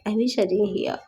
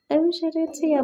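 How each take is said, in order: First: Said in the usual way. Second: Pained wish. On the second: Retold or imitated. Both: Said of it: "I'm like".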